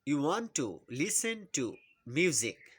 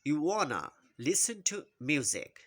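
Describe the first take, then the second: First: 'Want to' is said as two full words. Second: 'Want to' is run together as 'wanna'.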